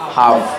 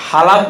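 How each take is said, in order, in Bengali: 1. এই শব্দে L উচ্চারণ হয় না। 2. এই শব্দে L উচ্চারণ হয়। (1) "এল উচ্চারণ হবে না" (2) "হালাপ না হাফ?"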